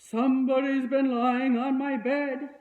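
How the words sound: The voice is deep, rough and gruff. A big, strong character is speaking. "in his rough"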